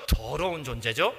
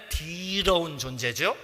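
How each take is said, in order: First: Said in the usual way. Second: With feeling. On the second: Shown as a demonstration. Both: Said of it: "느낌 살리자면".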